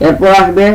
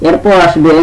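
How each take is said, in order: No difference in how they are said.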